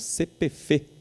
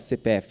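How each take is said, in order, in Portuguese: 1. As letras são ditas do jeito regional. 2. As letras são ditas do jeito padrão. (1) "eles falam C P F" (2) "eles não falam C P F"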